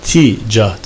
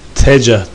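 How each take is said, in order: First: The first vowel is i. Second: The first vowel is a. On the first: "este ile" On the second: "fetha ile"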